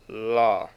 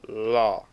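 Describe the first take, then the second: No difference in how they are said.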